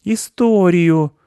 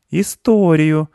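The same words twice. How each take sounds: First: High, drawn-out insistent demand; demanding boy. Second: High, insistent one-word demand; demanding boy. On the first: Acted. Mark repeats his demand, high and stubborn. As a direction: stretch the word out in a high kid voice. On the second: A narrator's reading. Mark withholds nuts from squirrel, demanding. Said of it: "потребовал Марк".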